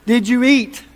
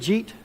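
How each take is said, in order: First: Each word of the question is said separately. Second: The whole question is squeezed into one syllable.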